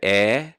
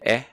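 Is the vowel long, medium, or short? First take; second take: long; short. First: The vowel is held long. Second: The vowel is cut short.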